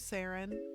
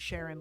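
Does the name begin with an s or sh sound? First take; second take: s; sh. First: The name begins with a plain s sound. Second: The name begins with a sh sound. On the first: "I keep calling you Saren" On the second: "like Sinead or Sean"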